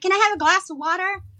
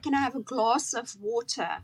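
First: It is said with an American accent. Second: It is said with a non-American accent. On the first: Listeners understood it. The speaker calls it right. "I just got to say" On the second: Listeners could not understand it. The speaker calls it wrong. "Nobody knew what I was saying"

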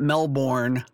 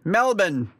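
First: The word is said without an Australian accent. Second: The word is said with an Australian accent. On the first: The speaker calls it wrong. "It's not Melbourne. I've been told that" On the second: The speaker calls it right. "Is that my Australian accent?"

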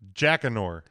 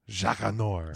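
First: The name is said with plain English pronunciation. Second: The name is said with a French-style pronunciation. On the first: "He does not pronounce it very French" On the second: "it's a lot more fun that way"

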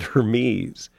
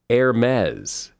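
First: The ending does not rhyme with Pez. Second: The ending rhymes with Pez. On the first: The speaker calls it wrong. "I've always said Hermès" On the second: The speaker calls it right. "It's actually Hermès, as in Pez"

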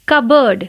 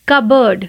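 No difference in how they are said.

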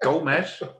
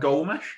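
First: The name ends with an s sound. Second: The name ends with a sh sound. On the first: The speaker calls it right. "It's got a fucking S. It hasn't got an H" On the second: The speaker calls it wrong. "His name's not Gomes"

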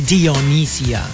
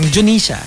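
First: The name begins with two syllables, 'Dee-oh'. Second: The name begins with one shortened 'Jo' syllable. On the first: The speaker calls it wrong. "You don't say Dionysia" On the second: The speaker calls it right. "if it's part of a longer word, then you kind of like shorten it"

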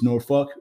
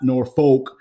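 First: Norfolk is said with the local pronunciation. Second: Norfolk is said with a non-local pronunciation. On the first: The speaker calls it right. "as they really pronounce it" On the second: The speaker calls it wrong. "It's not Norfolk"

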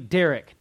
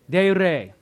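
First: The R is a plain English R. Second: The R is rolled. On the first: The speaker calls it wrong. "it's not pronounced that way" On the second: The speaker calls it right. "You got to roll the R, though"

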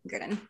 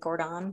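First: The first vowel sounds like 'ur'. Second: The first vowel sounds like 'or'. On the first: The speaker calls it right. "but we're going to say it Gurdon" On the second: The speaker calls it wrong. "I don't know why I want to say it like Gordon"

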